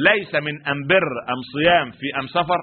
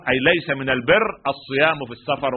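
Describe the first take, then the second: First: أم بر، أم صيام، أم سفر said with am for al; every al becomes am in أم بر and أم سفر; Himyari dialect. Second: Said in the usual way. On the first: Shown as a demonstration. (بلهجة حمير: أم بر وأم صيام وأم سفر بالميم) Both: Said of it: "ولكن لا لام عندنا تنطق".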